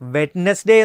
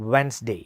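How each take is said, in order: First: The word has three syllables with a d sound. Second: The word has two syllables with no d sound. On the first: The speaker calls it wrong. "വെഡ്നസ്ഡേ എന്നോ വരെ പറയുന്നവരുണ്ട്" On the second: The speaker calls it right. "Actually this is pronounced as"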